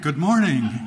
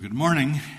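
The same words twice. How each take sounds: First: It is said loudly with lively, rousing energy. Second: It is said in a half-hearted, low-energy way.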